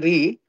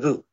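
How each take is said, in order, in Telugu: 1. ఈ అక్షరం 'e' అచ్చుతో ముగుస్తుంది. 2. ఈ అక్షరం 'u' అచ్చుతో ముగుస్తుంది. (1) "In North India, we say re" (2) "in Sanskrit pronunciation we go with the ru"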